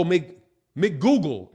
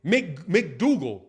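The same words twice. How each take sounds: First: McGoogle tried out slowly after a false start; name pronunciation attempt. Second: McDougal said slowly, the stressed middle syllable rhyming with Google; corrected name pronunciation. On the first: Trying a viewer's name as McGoogle, a bit slowly. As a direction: say McGoogle like Google with Mc in front. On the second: Getting a viewer's name right, slowly saying McDougal. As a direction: settle on McDougal, slow and deliberate. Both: Shown as a demonstration. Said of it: "McDougal rhymes with Google".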